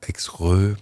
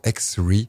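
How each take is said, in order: First: The name is pronounced the French way. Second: The name is pronounced the English way.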